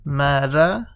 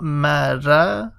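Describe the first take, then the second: First: The r is light, with a thin mouth. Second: The same.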